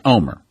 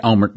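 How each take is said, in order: First: "Omer" with silent L and no final T; Israeli pronunciation. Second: "Olmert" with the L and final T sounded; spelled-out pronunciation. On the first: Host correcting himself on the Israeli name, pronouncing it Omer. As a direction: say "Omer" as OH-mer, dropping L and T. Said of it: "the correct pronunciation is Omer". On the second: Host owning up to what he said, pronouncing the written Olmert. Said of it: "again, the correct pronunciation is Omer". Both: Shown as a demonstration.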